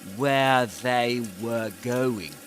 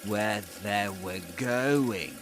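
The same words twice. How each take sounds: First: Each word is said separately and fully. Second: The words run together with reduced sounds. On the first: "if we produce, we pronounce these words in isolation" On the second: "But in connected speech, this changes to"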